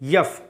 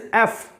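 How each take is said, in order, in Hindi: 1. यह "y" की आवाज़ से शुरू होता है। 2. यह एक सादे स्वर से शुरू होता है। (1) "not यफ" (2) "this is एफ"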